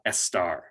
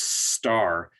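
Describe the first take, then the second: First: A vowel sound comes before the S. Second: The word starts directly with the S sound. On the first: The speaker calls it wrong. "not estar" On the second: The speaker calls it right. "would be pronounced star"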